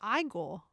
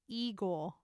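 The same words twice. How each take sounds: First: The first vowel is not an 'ee' sound. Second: The first vowel is an 'ee' sound. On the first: This is the English way to say it. "But English is Igor" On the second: This is the Russian way to say it. "the Russian pronunciation is Igor with a E E for the first sound"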